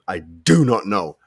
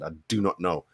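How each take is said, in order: First: "I do not know" louder and slower, every word weighted; emphatic repeat. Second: Said in the usual way. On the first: Real, not acted. To his viewers, repeating his disbelief about Pickford, slow and emphatic. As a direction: lean hard into "do" on the second go.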